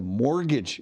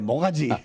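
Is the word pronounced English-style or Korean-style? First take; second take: English-style; Korean-style. First: It is pronounced with English sounds. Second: It is pronounced with Korean sounds, like mogaji.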